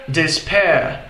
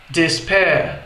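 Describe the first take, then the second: The two takes are said the same way.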